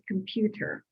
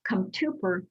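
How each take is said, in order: First: The sounds of the word are in usual order. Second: The middle sounds of the word are swapped. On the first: The speaker calls it right. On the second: The speaker calls it wrong.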